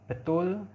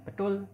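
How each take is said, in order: First: Said in the usual way. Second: "betul" with a Balinese T. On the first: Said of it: "Misalnya betul dibunyikan dengan betul". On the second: Shown as a demonstration. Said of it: "orang Bali membunyikan T dengan". ("betul" dengan T logat Bali)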